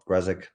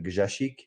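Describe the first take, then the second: First: The name is said with English pronunciation. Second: The name is said with Polish pronunciation. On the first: "in English, just call it" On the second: "in Polish, you pronounce it"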